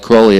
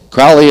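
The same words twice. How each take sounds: First: The first vowel sounds like 'holy'. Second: The first vowel sounds like 'foul'. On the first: The speaker thinks well of him. "if you think he's holy" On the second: The speaker thinks badly of him. "if you think him foully"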